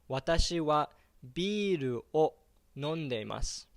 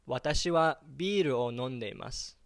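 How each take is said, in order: First: It is said more slowly. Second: It is said at normal speed.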